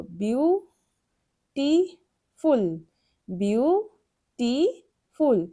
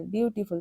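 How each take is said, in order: First: beautiful drawn out slowly, broken into its three syllables. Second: Said in the usual way. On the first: Shown as a demonstration. (Beautiful ধীরে তিন ভাগে ভেঙে বলা) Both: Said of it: "দেখো এটাকে আমরা কিভাবে বলবো?".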